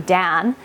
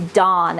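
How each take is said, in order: First: Said in the usual way. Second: "Dawn" with an open ah, rhyming with naan; Dan as Dawn. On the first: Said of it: "when I say my husband's name". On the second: Shown as a demonstration. Quoting what Southern viewers hear, "Dawn" with ah vowel. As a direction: say "Dawn" as if spelt D-A-H-N. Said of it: "they hear me say".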